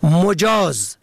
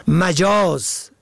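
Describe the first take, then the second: First: مجاز said "mojaz", o after m; short o first. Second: مجاز said "majaz", a after m; short a first. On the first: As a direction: say مجاز as "mo-JAAZ". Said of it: "به ضم اول". (مجاز با ضم اول، «مُجاز») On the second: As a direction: say مجاز as "ma-JAAZ". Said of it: "به فتح اول". (مجاز با فتح اول، «مَجاز») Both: Shown as a demonstration.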